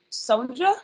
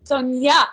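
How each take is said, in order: First: Sonja said with a J sound, questioning; tentative pronunciation. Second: Sonia repeated as SOHN-yah, louder; "Sonia" as SOHN-yah, confirming it; corrected pronunciation. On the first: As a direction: try "Sonja" with a hard J, unsure. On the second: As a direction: echo "Sonia" firmly with a Y sound. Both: Shown as a demonstration. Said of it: "is it pronounced Sonja?".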